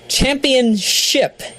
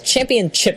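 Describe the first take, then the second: First: The last syllable begins with a sh sound. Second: The last syllable begins with a ch sound. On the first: The speaker calls it right. "Yes, ship" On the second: The speaker calls it wrong. "championship is not the way to pronounce it"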